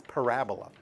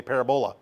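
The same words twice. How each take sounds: First: Parabola as pa-RA-bo-la, stress on RA; correct pronunciation. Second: Parabola as PAIR-a-bo-la, first syllable stressed; wrong pronunciation. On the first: Teacher corrects the class, quieter. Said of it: "but it's parabola". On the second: Teacher recalls students' usual mistake. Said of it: "they sometimes say parabola". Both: Shown as a demonstration.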